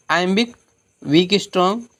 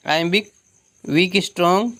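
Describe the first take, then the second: No difference in how they are said.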